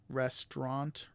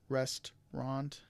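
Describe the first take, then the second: Both takes have the same delivery.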